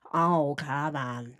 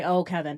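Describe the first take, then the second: First: Low, drawn-out mocking voice; Kevin Kovac mockery. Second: Second, quicker mocking try; Kevin Kovac mockery. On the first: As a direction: drag it out slowly, pitched down. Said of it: "making fun of Kevin Kovac". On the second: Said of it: "Or no, not". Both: Shown as a demonstration.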